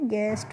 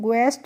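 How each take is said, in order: First: The word starts with a plain g sound. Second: The word starts with a gw sound. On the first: The speaker calls it right. "गेस्ट पढ़ते हैं" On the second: The speaker calls it wrong. "इसको ग्वेस्ट नहीं पढ़ते हैं"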